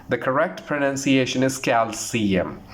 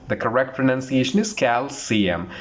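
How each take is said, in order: No difference in how they are said.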